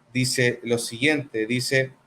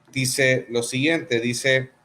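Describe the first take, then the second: No difference in how they are said.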